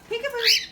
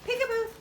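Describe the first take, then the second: First: Very high, loud rising peekaboo. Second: High falling peekaboo. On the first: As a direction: call it out brightly. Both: Real, not acted. Peekaboo with bird.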